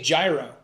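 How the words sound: It is said with a Pennsylvania pronunciation.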